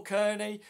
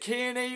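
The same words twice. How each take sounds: First: Kearney said as KUR-nee; second pronunciation option. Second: Kearney said as KEER-nee; first pronunciation option. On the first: Streamer checking a viewer's name, Kearney pronounced KUR-nee. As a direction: say Kearney with an "ur" first vowel. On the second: Streamer checking a viewer's name, Kearney pronounced KEER-nee. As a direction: say Kearney with a long "ee" first vowel. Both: Shown as a demonstration. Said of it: "Is it Kearney or Kearney?".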